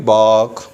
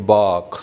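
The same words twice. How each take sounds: First: Bark, R kept before the K; American pronunciation. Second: Bark, R dropped after the vowel; British pronunciation. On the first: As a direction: bark with the R pronounced. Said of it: "we will pronounce". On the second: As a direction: bark with silent R, "baak". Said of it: "आर को silent कर देंगे". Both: Shown as a demonstration.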